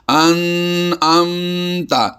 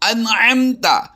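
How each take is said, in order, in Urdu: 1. n اور m غنہ دار ہیں اور لمبی کھینچی جاتی ہیں۔ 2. n اور m بغیر غنے کی گونج کے مختصر ہیں۔ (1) "لوگ اس میں غنہ کر کے پڑھتے ہیں" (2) "دونوں ہی میں غنہ نہیں پڑھنا"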